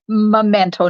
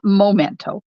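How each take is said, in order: First: The first syllable sounds like 'meh'. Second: The first syllable sounds like 'moh'. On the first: The speaker calls it right. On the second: The speaker calls it wrong. "not momento"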